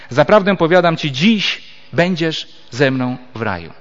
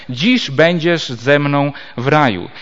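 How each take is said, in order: First: "Zaprawdę powiadam Ci, dziś" as one phrase, then a clear pause before "będziesz"; comma after dziś. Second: "Dziś" opens the phrase, running on into "będziesz"; comma before Dziś. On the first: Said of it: "przecinek przesuniemy w to miejsce". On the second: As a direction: start afresh on "Dziś", slowly, linked to "będziesz ze mną w raju". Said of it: "Jeśli jednak ten przecinek przesuniemy". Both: Shown as a demonstration.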